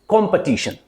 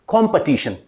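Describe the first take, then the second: The two takes are said the same way.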